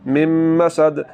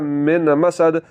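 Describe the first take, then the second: First: The n merges fully into the m. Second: A clear n sound is heard before m. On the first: The speaker calls it right. "नून की आवाज़ को मुकम्मल तौर पर आपने ख़त्म कर देना है" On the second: The speaker calls it wrong. "अगर आपने इसको पढ़ा मिन मसद तो ये गलत है"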